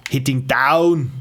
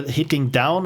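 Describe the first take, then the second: First: "down" drawn out slowly and louder; careful repeat. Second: Said in the usual way. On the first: Real, not acted. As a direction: repeat "hitting down" slowly, leaning hard on a long "down". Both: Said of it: "Sorry, my Austrian accent is shining through".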